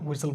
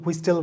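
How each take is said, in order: First: No t sound is pronounced in the middle. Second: A t sound is pronounced in the middle. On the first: The speaker calls it right. "হুইসেল বলি" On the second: The speaker calls it wrong. "হুইস্টেল আমরা বলি না"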